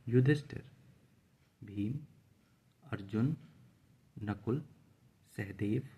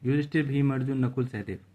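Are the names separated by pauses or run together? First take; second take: pauses; run together. First: Short pauses separate each of the names. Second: The names run together without pauses.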